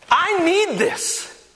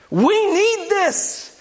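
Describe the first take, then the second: First: Slow, high, leaning on "need"; stress on need. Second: Slow and high, "need" pressed hard; stress on need. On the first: Pastor confessing his own need for prayer, slow stressed "need". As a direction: draw out "need" like a plea. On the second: Pastor turning his need to the congregation, slow stressed "need". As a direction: stretch "need" for the whole church. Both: Shown as a demonstration.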